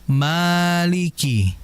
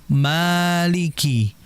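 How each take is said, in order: The two takes are said the same way.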